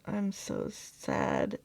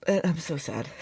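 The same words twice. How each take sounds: First: Much lower, slow, drawn-out mock lament; a hammed-up, slowed, deep "I'm so sad". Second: Said in the usual way. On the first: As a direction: drop the voice way down and drag out "I'm so sad".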